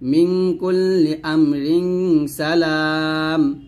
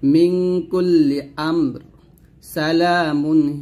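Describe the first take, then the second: First: 'Amrin' runs into 'salam', with a stop after it. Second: There is a pause after 'amr', then 'salamun' follows. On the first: "যদি আমরা এখানে মিলাইতাম এরকম" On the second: "আমি যেহেতু এখানে অক্ষ ধরছি"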